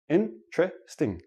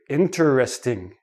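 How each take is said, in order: First: It is said quickly with three syllables. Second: Each of the four syllables is said separately. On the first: It is ordinary everyday speech. "When I actually say it naturally, it becomes three syllables" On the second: The speaker is emphasizing the word. "they enunciate each syllable"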